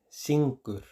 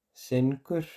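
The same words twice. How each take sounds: First: "syngur" con i cerrada, como "sinkur"; pronunciación recomendada. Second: "syngur" con vocal abierta, como "senkur"; pronunciación escrita. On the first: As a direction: di "syngur" con i, bajando al final. ("syngur" como "sinkur", lento) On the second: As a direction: di "syngur" con e, subiendo al final. ("syngur" como "senkur") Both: Shown as a demonstration. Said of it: "se dice syngur".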